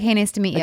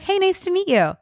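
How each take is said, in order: First: It is said in a flat, unfriendly way. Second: It is said in a warm, friendly way.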